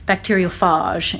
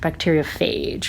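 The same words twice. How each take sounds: First: It is said in an odd, affected accent. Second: It is said in a plain, ordinary accent. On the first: "Maybe Moira would say" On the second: "instead of"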